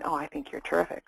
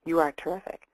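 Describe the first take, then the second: First: Said in the usual way. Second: Firm, unhedged compliment; stated as truth. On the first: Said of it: "Instead of saying". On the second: Shown as a demonstration. Coach demonstrating a compliment without hedging, stated as fact. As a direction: say it as a universal truth. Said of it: "we say".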